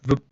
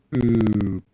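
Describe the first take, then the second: First: Short, quick boop; a tiny blip of a boop, over at once; instantaneous boop. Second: Long drawn-out boop; non-instant boop. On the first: Host disputing that light arrives instantly, abrupt boop. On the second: Host showing light takes time to travel, drawn-out boop. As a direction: stretch the boop out, letting it sink. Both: Shown as a demonstration. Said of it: "It's not instantaneous".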